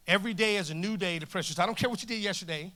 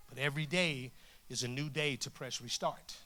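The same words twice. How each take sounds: First: Lifted, firmer repeat to the crowd; energised preacher's insistence; emphatic encouragement. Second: Low, softer preacher's assurance; understated, measured hope; gentle encouragement. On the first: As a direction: drive the point home. Same line repeated with force. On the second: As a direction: offer it quietly and earnestly. Same line, first gently, then forcefully. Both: Real, not acted.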